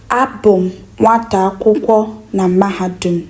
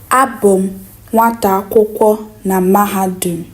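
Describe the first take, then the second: No difference in how they are said.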